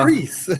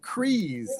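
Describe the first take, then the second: First: The vowel is a short 'i' sound. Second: The vowel is a long 'ee' sound. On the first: The speaker calls it right. "Crease, like Chris" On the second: The speaker calls it wrong. "I've been pronouncing it Crease, like breeze"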